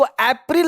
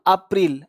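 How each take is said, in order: First: अप्रैल opening on "ay" or "ae"; wrong "ay-pril". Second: अप्रैल said "aap-RIL", lower; April with "aa". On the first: Teacher showing learners what to avoid, "ay" अप्रैल. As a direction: say अप्रैल as "AEP-ril". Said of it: "इसको अप्रैल नहीं बोलना". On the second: Teacher modelling for learners, "a-pril" अप्रैल. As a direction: open अप्रैल on "a", not "ay". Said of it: "ए का sound अक्सर आप बोलते हैं". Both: Shown as a demonstration.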